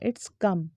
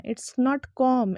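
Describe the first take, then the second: First: "come" low, short kum; correct pronunciation. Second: "com" slow with open aw; wrong pronunciation. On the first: Teacher repeats the fix, "come" said low as kum. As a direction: drop pitch on "come", vowel uh. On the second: Teacher repeats what to avoid, "com" said kawm slowly. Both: Shown as a demonstration.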